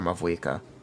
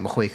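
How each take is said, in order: First: The middle consonant is a V sound. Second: The middle consonant is an H sound. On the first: "technically it can be derived with the nature of V" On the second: "pronounced with an H instead of a V"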